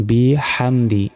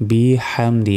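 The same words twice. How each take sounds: Both takes have the same delivery.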